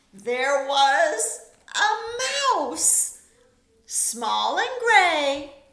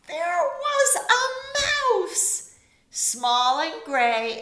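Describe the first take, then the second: First: Stretched slow, higher and louder; slow storybook refrain. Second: Much higher, stretched and louder; slow storybook refrain. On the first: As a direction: savour each word of the refrain. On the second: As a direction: sing out the surprise refrain slowly. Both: A narrator's reading.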